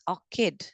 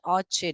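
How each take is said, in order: First: The middle consonant is a k sound. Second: The middle consonant is a ch sound. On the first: The speaker calls it right. "K, k, k sound" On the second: The speaker calls it wrong. "It's not orchid"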